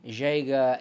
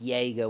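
First: The name is pronounced a non-German way. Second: The name is pronounced the German way. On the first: "others Jaeger" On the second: "Some people, whether they come from a German background, pronounced Jaeger one way"

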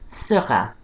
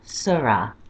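First: It is pronounced in French with a French R. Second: It is pronounced in French without the French R. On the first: "He's called Seurat" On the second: "if you can't get that R sound, Seurat is fine"

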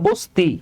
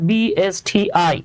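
First: It is said as one single word. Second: It is spelled out letter by letter. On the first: The speaker calls it wrong. "এটা তো বস্তি না" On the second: The speaker calls it right. "Letter by letter উচ্চারণ করলে"

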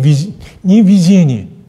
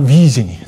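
First: The stress is on the second syllable. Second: The stress is on the first syllable. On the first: The speaker calls it wrong. "это ударение, ошибочно произнесла. Да, не видение" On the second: The speaker calls it right. "а видение"

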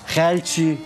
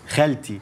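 First: The t sound is followed by a sh hiss. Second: The t sound is clean with no hiss. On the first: The speaker calls it wrong. "تبطلي تحشي حرف الشين اللي في كلامك ده. يعني ما تقوليش" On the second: The speaker calls it right. "تقولي"

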